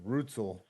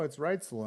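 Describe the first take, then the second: First: The first vowel is not an 'eye' sound. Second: The first vowel is an 'eye' sound. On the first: The speaker calls it wrong. "I thought for the longest time Brighton was Rutzel" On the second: The speaker calls it right. "show me where the I or the Y's at"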